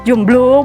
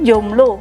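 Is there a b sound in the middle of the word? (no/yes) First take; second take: yes; no. First: The word is said with a b sound. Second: The word is said without a b sound. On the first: This is how people commonly say it. The speaker calls it wrong. "kita seringnya kan jomblo, blo gitu kan" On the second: This is the standard form. The speaker calls it right. "sebenarnya yang benar tuh jomblo, yang baku"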